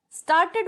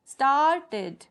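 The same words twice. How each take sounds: First: Said in the usual way. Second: स्टार्टेड stretched, staart and then ted; two-syllable demo. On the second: Shown as a demonstration. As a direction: break स्टार्टेड clearly into two beats. (स्टार्टेड को स्टार्ट-टेड, तोड़कर बोलें) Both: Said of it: "means two syllable".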